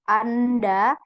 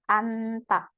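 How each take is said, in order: First: The word ends in da. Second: The word ends in ta. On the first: The speaker calls it wrong. "bukan anda" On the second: The speaker calls it right. "Rebun bacanya anta"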